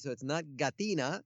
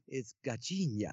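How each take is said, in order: First: Gatina said with a plain t and n; "gatina", not the Portuguese sound; wrong pronunciation. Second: "gatinha" said gah-CHEEN-yah, soft ch and nasal nh; Portuguese "gatinha" with ch and ny; Portuguese pronunciation. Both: Shown as a demonstration.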